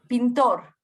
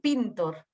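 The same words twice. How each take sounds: First: The stress is on the last syllable. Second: The stress is on the first syllable.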